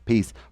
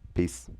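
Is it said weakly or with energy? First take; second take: with energy; weakly. First: It is said strongly, with more energy. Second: It is said weakly, with little energy.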